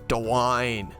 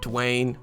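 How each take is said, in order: First: The name is said with an Australian accent. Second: The name is said without an Australian accent. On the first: The speaker calls it right. "he's got to have an Australian accent" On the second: The speaker calls it wrong. "not Dwayne"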